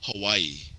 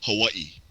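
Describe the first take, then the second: First: It is said with the outsider's mainland pronunciation. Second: It is said with the local Hawaiian pronunciation. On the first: This is how people not from Hawaii say it. "People from not from Hawaii will call it Hawaii" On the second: This is how people from Hawaii say it. "people from Hawaii call it Hawaii"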